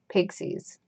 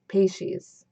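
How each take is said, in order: First: It sounds like the word 'pixies'. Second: It sounds like the zodiac sign 'Pisces'. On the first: The speaker calls it wrong. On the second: The speaker calls it right.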